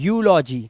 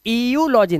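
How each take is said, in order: First: The word begins with a plain 'yoo' sound. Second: The word begins with an 'ee-yoo' sound. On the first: The speaker calls it right. "सिर्फ यू, ई यू ही यू हो जाता है" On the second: The speaker calls it wrong. "ईयूलॉजी नहीं नहीं नहीं नहीं"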